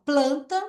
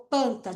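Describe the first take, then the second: First: Planta said with the full PL cluster; teacher models planta correctly. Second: Panta said with the L dropped, P straight into A; teacher imitates a child reading panta; misread panta. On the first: Teacher shows the right way to say planta. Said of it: "planta, ela leu panta". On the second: Teacher mimics a child's misreading, panta. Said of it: "ela leu panta". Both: Shown as a demonstration.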